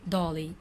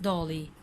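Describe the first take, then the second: No difference in how they are said.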